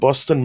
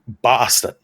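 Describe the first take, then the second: First: The word is said in a plain accent. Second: The word is said in a Boston accent.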